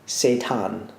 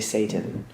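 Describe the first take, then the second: First: The word does not sound like 'Satan'. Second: The word sounds like 'Satan'. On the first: The speaker calls it right. "I'm going to say this right first go" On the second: The speaker calls it wrong. "because I always say Satan, and it's like a no"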